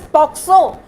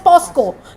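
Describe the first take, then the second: First: The middle consonants are said as 'k' then 's'. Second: The middle consonants are said as 's' then 'k'. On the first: This is the proper pronunciation. The speaker calls it right. "not many people think of it as POXO" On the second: This is the common mispronunciation. The speaker calls it wrong. "they often pronounce it as POSCO"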